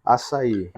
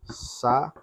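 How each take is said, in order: First: Said in the usual way. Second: "Açaí" split as a... ça... í, with pauses; teacher spacing out "Açaí" in three beats; syllable by syllable. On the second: Shown as a demonstration. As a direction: separate each syllable of "Açaí". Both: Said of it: "vamos separar".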